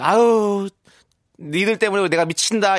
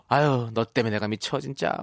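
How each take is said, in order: First: Louder, affectionate fed-up cry; fond exasperation. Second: Fed-up sigh. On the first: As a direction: scold them fondly, out loud. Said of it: "미라클 여러분들이". (애정 어린 투정) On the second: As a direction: mutter it, half exasperated. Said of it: "입속에서 이런 말이 나올 겠네요". (지친 듯 투덜대는 말투) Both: Pretend.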